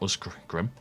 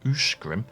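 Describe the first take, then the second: First: The consonant before the g sounds like s. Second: The consonant before the g sounds like sh. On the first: The speaker calls it wrong. "and not Usgrim" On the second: The speaker calls it right. "Sk sounds like sh"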